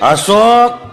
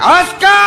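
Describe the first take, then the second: First: The name is said in a sharper, sterner voice. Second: The name is barked out in a very harsh voice. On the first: After a few years the affection has cooled. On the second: After many years she is frightening.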